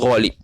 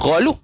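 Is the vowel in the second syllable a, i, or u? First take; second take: i; u. First: The second syllable has the vowel i. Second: The second syllable has the vowel u. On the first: The speaker calls it right. "tapi ghalib" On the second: The speaker calls it wrong. "bukan ghalub"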